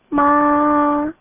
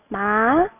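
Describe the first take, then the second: First: The pitch stays high and level. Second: The pitch rises from middle to high. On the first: "1성은 평평하게 발음이에요" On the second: "이성은 누구 갑자기 불렀을 때, 네? 이런 느낌으로 발음해 주세요"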